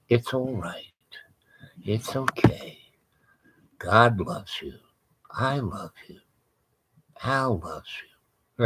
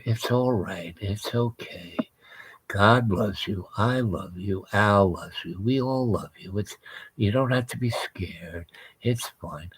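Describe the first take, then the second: First: Hushed, gentle soothing; soft soothing voice. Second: Hushed, soft and tender, sinking to a whisper; soothing whisper. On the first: Wife softly soothing a demon, hushed and gentle. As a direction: coo it softly like calming a frightened animal. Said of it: "I hear her voice going". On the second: Wife whispering comfort to the beast, soft and hushed. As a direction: soothe it gently, almost whispering. Wife calming creature, retold again. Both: Retold or imitated.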